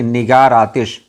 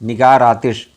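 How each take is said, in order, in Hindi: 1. 'r' सीधे अगले स्वर में जा मिलता है। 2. 'r' सीधे अगले स्वर में जा मिलता है।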